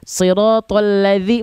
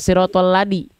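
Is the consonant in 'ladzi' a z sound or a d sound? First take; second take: z sound; d sound. First: The middle consonant is a flowing z sound. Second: The middle consonant is a stopped d sound. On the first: The speaker calls it right. "Ujung lidah disentuhkan ke ujung gigi seri atas. Dialirkan suaranya" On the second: The speaker calls it wrong. "bukan siratal ladi"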